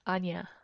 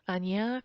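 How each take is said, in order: First: It is said quickly, with syllables run together. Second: All three syllables are said in full.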